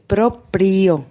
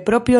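First: It is said with an r after the p. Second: It is said without an r after the p. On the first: The speaker calls it right. "sino que propio no es proprio" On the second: The speaker calls it wrong. "no solo no se puede decir de motu propio"

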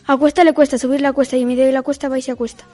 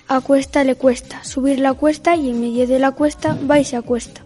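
First: It is said fast. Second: It is said at normal speed.

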